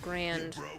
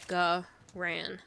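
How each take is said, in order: First: It is said as one syllable, like grand. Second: It is said as two syllables with no final d. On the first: The speaker calls it wrong. "Uncultured swines will pronounce the gun grand, like nice. The biscuit" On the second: The speaker calls it right. "Silent D at the end. So it's a Garan"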